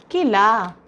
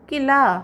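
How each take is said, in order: First: किला read whole, clear and falling; whole word first. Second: किला said again after spelling it out, higher and louder; after spelling, whole word. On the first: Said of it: "क, ई और ल". (किला पूरा शब्द साफ़ बोलिए) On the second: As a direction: blend क, ई, ल back into किला. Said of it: "और ल". (वर्तनी के बाद किला ज़ोर से जोड़कर बोलिए) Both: Shown as a demonstration.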